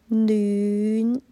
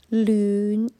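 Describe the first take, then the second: First: The word starts with an n sound. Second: The word starts with an l sound. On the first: The speaker calls it right. "我心目中比较纯正的暖的发音是暖" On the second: The speaker calls it wrong. "我听到演唱者的发音是暖"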